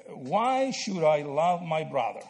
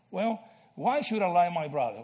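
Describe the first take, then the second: First: Slow, deliberate rhetorical question; slow posed question. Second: Said in the usual way. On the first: Shown as a demonstration. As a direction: draw the question out slowly for the class. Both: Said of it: "And answer the question".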